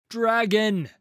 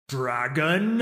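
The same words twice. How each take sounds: First: Loud, high commanding shout of the word; booming cry. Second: Loud, drawn-up questioning purr; mocking purr. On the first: Warrior Pantheon summoning the dragon, booming cry. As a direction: boom it out like a war cry. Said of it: "She cries out with a voice that booms". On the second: Dragon toying with the warrior commanding it, mocking purr. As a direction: throw the name back as a rising, taunting purr. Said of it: "I purr". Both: A narrator's reading.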